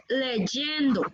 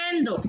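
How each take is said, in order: First: "leyendo" very slowly with a strong y; slow, careful "leyendo", y sounded; correct leyendo. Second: "leendo" with the y dropped; wrong leyendo. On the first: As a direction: model "leyendo" as le-yen-do. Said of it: "es leyendo". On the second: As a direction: show the faulty "leendo", two e's together. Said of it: "No es leendo". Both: Shown as a demonstration.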